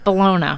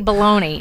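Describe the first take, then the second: First: It is said the Italian way, like the city. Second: It is said like the American 'baloney'. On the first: "It's bologna" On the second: "I don't say bologna"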